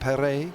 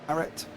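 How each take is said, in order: First: The name is said with a French accent. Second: The name is said with an English accent.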